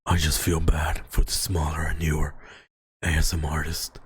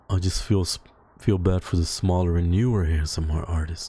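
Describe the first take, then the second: First: It is read in a put-on character voice. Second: It is read in the speaker's ordinary voice.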